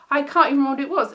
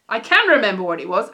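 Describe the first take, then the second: First: Said in the usual way. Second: CAN pushed louder, correcting herself; "can" stressed in a self-correction. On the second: Real, not acted. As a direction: lean on "can", loud and sure.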